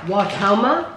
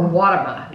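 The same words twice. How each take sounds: First: Watoma with the middle syllable stressed; pronounced wah-TOH-muh. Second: Watama with the first syllable stressed; pronounced WAH-tuh-muh. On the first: Host unsure how the name is pronounced, wah-TOH-muh. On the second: Host offers another pronunciation of the name, WAH-tuh-muh. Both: Shown as a demonstration. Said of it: "Is that how you pronounce it?".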